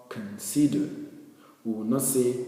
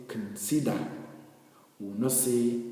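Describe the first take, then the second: No difference in how they are said.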